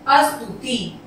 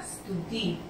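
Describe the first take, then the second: First: "अस्तुति" as astuti, with a vowel before st; added opening vowel. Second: "स्तुति" as stuti, no vowel before st; correct st onset. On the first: Teacher shows pupils the colloquial form, "अस्तुति" starting as-tu. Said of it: "इसका सही अक्षर स्तुति". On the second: Teacher gives pupils the right form, "स्तुति" starting on st. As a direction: start "स्तुति" straight on the st cluster. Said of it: "इसका सही अक्षर". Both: Shown as a demonstration.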